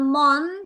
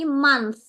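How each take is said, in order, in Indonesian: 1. Kata itu berakhir dengan bunyi t biasa. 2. Kata itu berakhir dengan bunyi th yang lembut. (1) "Bukan month" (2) "T H di belakang itu pakainya sa"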